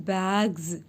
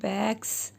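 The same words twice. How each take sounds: First: The final sound is a buzzing Z. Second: The final sound is a hissing S. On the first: The speaker calls it right. "then the letter S will say Z sound" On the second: The speaker calls it wrong. "It is not bags"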